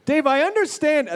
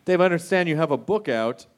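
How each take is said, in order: First: Blurted opener. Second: Casual host segue, acting offhand; talk show host. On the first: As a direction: blurt it out too soon. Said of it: "Wait, I don't think I did that right". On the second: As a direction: slide in like it just came up. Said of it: "That's how you're supposed to do it in the talk show world". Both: Shown as a demonstration.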